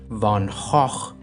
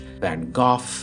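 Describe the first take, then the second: First: The name is said with a Dutch pronunciation. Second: The name is said with a British pronunciation. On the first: "using the Dutch Van Gogh seems pretentious and produces phlegm" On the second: "as is the British Van Gogh"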